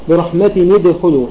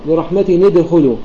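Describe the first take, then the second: No difference in how they are said.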